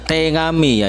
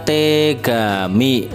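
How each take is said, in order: First: The middle consonant is a nasal ng. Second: The middle consonant is a hard g. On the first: "Bisa diucapkan juga dengan kata tengami" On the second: "ada kata tegami"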